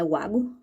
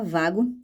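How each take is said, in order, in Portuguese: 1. O nome começa com som de W. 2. O nome começa com som de V. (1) "não é Wago" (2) "um som de V"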